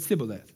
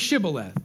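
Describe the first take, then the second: First: The word begins with an 's' sound. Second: The word begins with an 'sh' sound. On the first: The speaker calls it wrong. "They said Sibboleth" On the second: The speaker calls it right. "They couldn't say Shibboleth"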